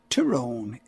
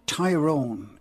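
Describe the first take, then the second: First: The stress is on the second syllable. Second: The stress is on the first syllable. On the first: The speaker calls it right. "the correct pronunciation is, as Philomena said it there, Tyrone" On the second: The speaker calls it wrong. "a lot of people say Tyrone"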